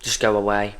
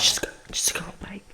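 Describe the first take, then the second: First: Said in the usual way. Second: Breathy whispered plea, much softer. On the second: Acted. Begging the heat wave to leave, in a whisper. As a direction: hush it away like a secret.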